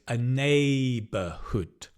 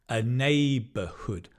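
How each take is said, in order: The two takes are said the same way.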